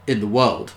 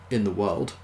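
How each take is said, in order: First: "In the world." louder, with falling end; emphatic repeat. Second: Said in the usual way. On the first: A narrator's reading. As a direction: hit "In the world." harder, landing it firmly. Repeated phrase, built up for emphasis.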